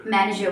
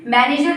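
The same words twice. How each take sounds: First: "मैनेजर" with no final r; correct manager. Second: "मैनेजर" with the final r sounded; mispronounced manager. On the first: Teacher giving the form to use from today, r-less manager. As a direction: let "मैनेजर" fall away on a schwa. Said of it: "क्या बोलेंगे आज से". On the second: Teacher warning learners off it, manager with sounded r. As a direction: say the r at the end of "मैनेजर". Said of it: "मैनेजर नहीं". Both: Shown as a demonstration.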